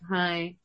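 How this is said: The greeting sounds flat and unenthusiastic.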